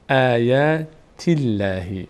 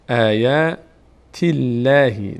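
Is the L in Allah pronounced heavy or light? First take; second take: light; light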